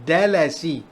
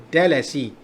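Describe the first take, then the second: Both takes have the same delivery.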